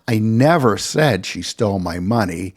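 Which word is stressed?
said. The word "said" is stressed. It was never actually said aloud. "I never accused her of stealing my money"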